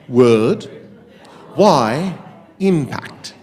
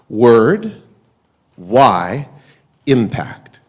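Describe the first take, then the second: First: It is said in a put-on British accent. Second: It is said in the speaker's normal accent.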